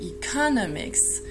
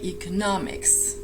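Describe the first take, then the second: First: The stress falls before the third syllable. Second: The stress is on the third syllable. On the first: The speaker calls it wrong. "you do not say economics" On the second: The speaker calls it right. "make sure the stress is on the third syllable"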